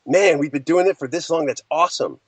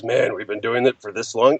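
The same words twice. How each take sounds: First: Upbeat, pleased take on the line; excited. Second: Tired low take on the line; weary sigh. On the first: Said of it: "It's like". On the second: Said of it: "not one of those". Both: Shown as a demonstration.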